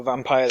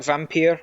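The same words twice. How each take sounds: First: Vampire ending like "pyre"; Vampire as "vam-pire". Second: Vampire ending like "peer"; Vampire as "vam-peer". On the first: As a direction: say Vampire to rhyme with "fire". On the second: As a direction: say Vampire to rhyme with "here". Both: Shown as a demonstration. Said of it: "I don't know how to pronounce it".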